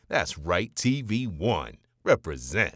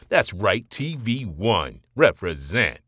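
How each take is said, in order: First: It is delivered slightly more restrained and subdued. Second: It is delivered with bigger, fuller energy.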